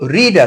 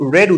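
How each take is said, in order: First: The vowel is long, like 'reed'. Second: The vowel is short, like 'red'. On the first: The speaker calls it wrong. "তো রিড আছে" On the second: The speaker calls it right. "Actually রেড উচ্চারণটা হবে"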